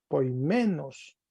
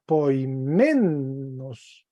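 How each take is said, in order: First: Said in the usual way. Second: Poimenos drawn out, with "men" stretched and raised; exaggerated stress on MEN. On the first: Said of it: "entonces se leería poimenos". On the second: Shown as a demonstration. Teacher showing how the accented epsilon reads, exaggerated stress on "men" in poimenos. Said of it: "Estoy señalando, recargando como el acento".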